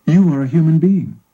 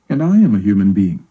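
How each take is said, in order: First: You are a human being, You pushed; stress on you. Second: Am leaned on, steady pitch, falling to the end; and I am a human being, am pushed; stress on am. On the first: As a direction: lean on You to set it against I. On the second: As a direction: press am to answer the You before. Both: A narrator's reading. Contrasting you and I.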